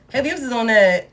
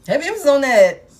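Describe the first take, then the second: First: Said in the usual way. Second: "Heavy emphasis on that" higher and louder, hitting "Heavy"; emphatic repeat. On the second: Shown as a demonstration. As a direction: punch the repeat so it lands.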